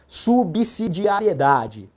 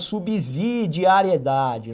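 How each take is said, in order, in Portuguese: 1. A consoante depois de 'sub' é um som de 's'. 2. A consoante depois de 'sub' não é um som de 's'. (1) "O som aí é som de S" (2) "Alguns falam subsidiariedade"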